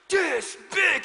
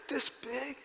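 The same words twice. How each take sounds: First: Puffed-up "This big." said higher and louder; proud child. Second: Put-on soft, timid child asking "This big?"; small scared voice, "This big?" barely voiced; trembling scared child. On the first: Retold or imitated. Son proudly showing his daddy's size, puffed-up boast. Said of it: "he got so proud". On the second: Son timidly showing the bug's size, soft and scared. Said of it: "He's, like, shaking and trembling".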